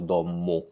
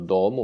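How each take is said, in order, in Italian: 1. Il suono m è lungo e doppio. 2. Il suono m è breve e singolo. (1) "ma noi pronunciamo dommo" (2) "è scritto domo"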